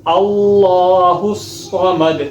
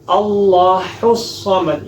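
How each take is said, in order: First: اللہ الصمد with a full heavy ha, chanted. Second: اللہ الصمد with a thin final ha in اللہ; slow demo with light ha; wrong light ha. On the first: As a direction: correct heavy ha. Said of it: "موٹا ہا پڑھنا ہے". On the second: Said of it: "یہ غلط ہے". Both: Shown as a demonstration.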